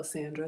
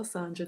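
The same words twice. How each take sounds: First: Sandra pronounced "SAN-druh", as in sand; short a, like fan. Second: Sandra said "SAHN-druh", with an open ah; first vowel as ah. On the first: Host greets corrected viewer, Sandra pronounced "SAN-druh". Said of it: "Sand like fan". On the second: Host greets a viewer by name, Sandra pronounced "SAHN-druh". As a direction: say Sandra as if spelt Sondra. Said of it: "Is it Sandra or Sandra?". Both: Real, not acted.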